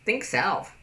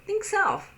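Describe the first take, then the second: First: Level curt "Think self"; flat curt. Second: High, light "Think self"; bright and friendly. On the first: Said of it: "As opposed to". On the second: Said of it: "your facial expressions are". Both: Shown as a demonstration.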